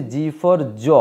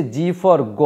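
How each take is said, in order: First: জ said as a soft j. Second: গ said as a hard g. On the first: Teacher explaining two sounds of G, demonstrating the soft জ. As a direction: sound out জ clearly after "জি for". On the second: Teacher explaining two sounds of G, demonstrating the hard গ. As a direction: sound out গ clearly after "জি for". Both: Shown as a demonstration. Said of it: "এই জি এর উচ্চারণ দুটো হয়".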